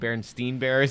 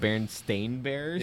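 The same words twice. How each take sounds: First: The last syllable of the name sounds like 'steen'. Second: The last syllable of the name sounds like 'stain'. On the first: This is how many people remember the name. The speaker calls it wrong. "people have strong memories that it's Ein" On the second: This is the name's actual form. The speaker calls it right. "It's Ain"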